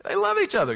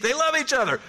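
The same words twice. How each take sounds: First: Even higher, loud stress on each; hammed-up stress. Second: High, loud stress on love; mock Italian gush. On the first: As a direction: push each up to the top of the voice. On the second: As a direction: lean hard on love, sing it out. Repeated with rising emphasis.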